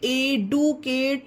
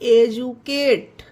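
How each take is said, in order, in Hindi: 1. बीच वाला व्यंजन 'd' जैसा लगता है। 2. बीच वाला व्यंजन 'j' जैसा लगता है। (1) "इसे एडुकेट नहीं पढ़ेंगे गाइस" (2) "इसमें डी का उच्चारण जा हो गया है"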